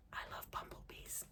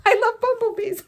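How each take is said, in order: First: Very soft, voiceless whisper; hushed, breath-only delight. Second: High, loud laughing gush; full-voiced squeal of delight after whispering. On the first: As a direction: whisper it like an awed confession. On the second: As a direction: burst out with it, laughing. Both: Real, not acted. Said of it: "why am I whispering".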